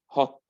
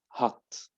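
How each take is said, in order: First: It is said in a British accent. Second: It is said in an American accent. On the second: "then American"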